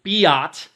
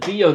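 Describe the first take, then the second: First: It is said as 'bye-ot' with a final t. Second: It is said as 'bee-oh' with no final t. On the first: The speaker calls it wrong. "you do not pronounce it biot" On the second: The speaker calls it right. "It's known as the B O number"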